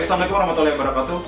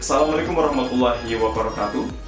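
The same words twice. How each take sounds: First: It is spoken very fast. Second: It is spoken at a moderate speed. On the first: The speaker calls it wrong. "nah itu kecepatan banget teman-teman" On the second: The speaker calls it right. "tidak terlalu cepat dan tidak begitu lambat"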